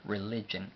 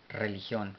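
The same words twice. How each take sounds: First: "religion" said the English way, ri-LI-jen; English pronunciation. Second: Said in the usual way. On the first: Shown as a demonstration. ("religion" pronunciado en inglés, ri-LI-yen) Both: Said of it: "aunque se pronuncia un poco diferente".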